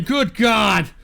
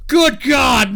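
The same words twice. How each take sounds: First: Said in the usual way. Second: Good God shouted out; a louder, thrilled Good God; loud exclaim. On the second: Real, not acted. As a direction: belt it out in disbelief. Reacting to the donations.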